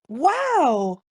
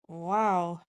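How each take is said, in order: First: It sounds amazed and admiring. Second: It sounds disbelieving and disapproving. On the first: The thing seen is impressive. "The first one is, oh my God, wow, that's impressive" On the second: The other person's behavior is excessive. "the second one is, wow, are you really going on like that?"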